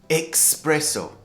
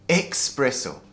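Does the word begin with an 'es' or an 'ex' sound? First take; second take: ex; ex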